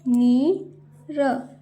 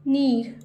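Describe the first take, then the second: First: नीर slowly as नी, pause, र; split syllables. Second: Said in the usual way. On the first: Shown as a demonstration. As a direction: sound out नीर with long ee. (नीर को तोड़कर, नी-र) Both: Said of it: "जैसे मैं बोल रही हूँ".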